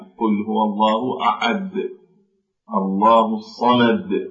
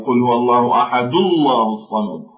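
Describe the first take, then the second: First: Ahad ends in a stop with an echo sound. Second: Ahad runs straight on with no echo sound. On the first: "عند الوقوف عليها" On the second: "فهنا لا يظهر الصويت بعد الدال"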